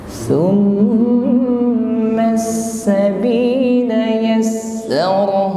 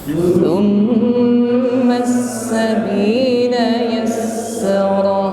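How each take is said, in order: No difference in how they are said.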